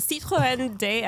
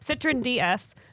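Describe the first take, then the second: First: The name is pronounced the French way. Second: The name is pronounced the English way. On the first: "I don't think I've ever actually heard you speak French" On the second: "In English"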